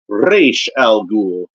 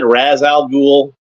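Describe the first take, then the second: First: The first part ends with an 'sh' sound. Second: The first part ends with a 'z' sound. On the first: This is how the animated series said it. "they said Raish Al Ghul" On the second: This is how it was said in childhood. "I think I always just said Raz Al Ghul when I was a kid"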